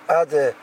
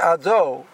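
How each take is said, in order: First: The second syllable has an e vowel. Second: The second syllable has an o vowel. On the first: The speaker calls it wrong. "it ends up sounding more like an E sound or an I sound" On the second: The speaker calls it right. "he has to say Ado"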